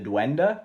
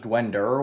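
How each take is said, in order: First: The word ends in a plain vowel, no R. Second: The word ends with an R sound. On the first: The speaker calls it right. "I guess is how you pronounce it" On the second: The speaker calls it wrong. "with an R"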